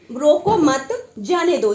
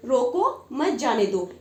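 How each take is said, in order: First: रोको मत said together, break, then जाने दो; louder, slow, with a comma pause after मत. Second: रोको alone, break, then मत जाने दो together; slow, with a comma pause right after रोको. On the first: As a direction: hold a short pause between मत and जाने. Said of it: "इस जगह पे हमको थोड़ा सा रुकना है". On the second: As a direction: stop briefly between रोको and मत. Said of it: "दूसरी जगह देखते हैं कि". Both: Shown as a demonstration.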